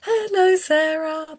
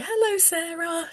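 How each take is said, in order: First: Imitating the little girl echoing the greeting; child echoing. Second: Put-on high, soft greeting to a little girl; adult greeting. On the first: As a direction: copy it back like a little girl. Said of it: "she would go". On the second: Shown as a demonstration. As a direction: greet her gently and pitched up. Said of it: "if I say".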